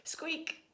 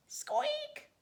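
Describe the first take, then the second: First: High, breathy whispered squeak; a tiny squeak barely voiced; faint chick squeak inside the egg. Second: Very high, sharp squeak with a rising tune; high chick squeak from inside the shell; loud squeak. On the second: Acted. Imitating the egg squeaking.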